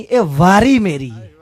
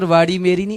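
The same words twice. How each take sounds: First: "واری" with a plain tapped r, drawn out; word corrected to واری. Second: "واڑی" with a retroflex flap ṛ in the middle; word said as واڑی. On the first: Old man telling a youth it's his turn, plain r in "واری". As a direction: stress "واری" with a simple r, no curled tongue. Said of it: "پتر، واڑی میری نہیں". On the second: Old man correcting a youth's word, retroflex ṛ in "واڑی". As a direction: say "واڑی" with the tongue curled back for the ṛ. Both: Retold or imitated.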